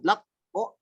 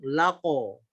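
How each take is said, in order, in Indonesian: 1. Bunyi q ditahan sebelum vokalnya muncul. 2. Bunyi q langsung dilepas ke vokal. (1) "Tidak ditahan, tidak lak o" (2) "tapi langsung lako"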